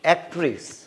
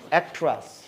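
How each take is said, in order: First: The second syllable has a full 'e' vowel. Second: The second syllable has a reduced 'uh' vowel. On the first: The speaker calls it wrong. "আমরা বলি যে অ্যাক্ট্রেস" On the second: The speaker calls it right. "অ্যাক্ট্রেস না হয়ে অ্যাক্ট্রাস"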